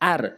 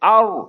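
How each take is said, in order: First: The r is thin, with lips unrounded. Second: The r is heavy, with lips rounded. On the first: The speaker calls it wrong. "ভুল বলে আর" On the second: The speaker calls it right. "মুখ পুর করে আর"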